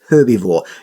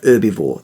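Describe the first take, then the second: First: The word starts with a clear h sound. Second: The word starts without an h sound. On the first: The speaker calls it right. "There's an H on it" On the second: The speaker calls it wrong. "not herbivore"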